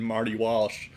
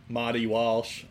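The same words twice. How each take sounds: First: The name is said in a plain accent. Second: The name is said in a Boston accent.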